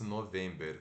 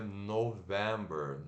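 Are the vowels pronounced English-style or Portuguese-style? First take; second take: Portuguese-style; English-style. First: The vowels are read as written, Portuguese-style. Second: The vowels are reduced, in the English way. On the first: The speaker calls it wrong. "como se fosse November" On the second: The speaker calls it right. "Mas se pronuncia November"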